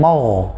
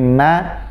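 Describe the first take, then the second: First: The syllable is heavy and dark. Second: The syllable is light and thin. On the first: The speaker calls it wrong. "bukan mau, ... terlalu berlebihan" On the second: The speaker calls it right. "tapi ma"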